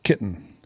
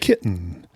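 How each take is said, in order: First: The T runs straight into N, no vowel. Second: A short vowel follows the T before N. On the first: "We don't even pronounce the E in kitten" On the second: "They're just adding a little vowel after it"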